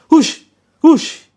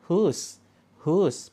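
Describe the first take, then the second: First: It is said loudly and fiercely. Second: It is said softly and gently.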